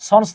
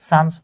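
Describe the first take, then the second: First: The vowel sounds like the one in 'on'. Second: The vowel sounds like the one in 'sun'. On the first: The speaker calls it wrong. "সন্স না" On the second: The speaker calls it right. "উচ্চারণ হচ্ছে সানস"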